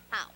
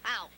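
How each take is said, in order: First: It is said with sad pathos. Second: It is said with bold bravado.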